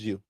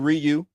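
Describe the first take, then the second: First: The name begins without any R sound. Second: The name begins with an R sound. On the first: "The R is silent" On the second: "you can say Ryu"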